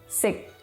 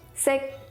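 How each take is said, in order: First: A short syllable on a low pitch. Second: A short syllable on a mid pitch. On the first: "and low tones"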